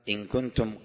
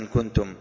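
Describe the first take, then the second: First: The first word begins with an i vowel. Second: The first word begins with a non-i vowel. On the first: "بكسر الهمزة" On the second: "والباقون بضمها"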